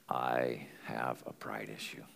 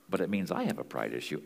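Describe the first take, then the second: First: Hushed, unvoiced whisper, slowed down; whispered confession. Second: Said in the usual way. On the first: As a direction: let it slip out as a whispered admission. Confessing pride after a pause.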